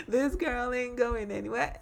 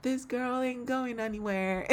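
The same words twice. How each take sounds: First: Said through real laughter, high; giggling while repeating the title; laughing. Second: Said in the usual way. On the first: Real, not acted.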